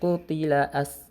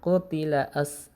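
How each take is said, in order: Both takes have the same delivery.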